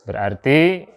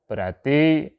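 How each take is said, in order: The two takes are said the same way.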